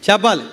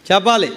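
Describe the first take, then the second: No difference in how they are said.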